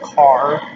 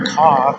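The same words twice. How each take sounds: First: It is said in a standard American accent. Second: It is said in a Brooklyn accent.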